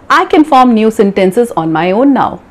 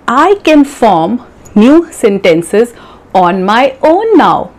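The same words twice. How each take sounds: First: The sentence is spoken quickly. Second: The sentence is spoken slowly. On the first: The speaker has practised for some time. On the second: The speaker is a beginner.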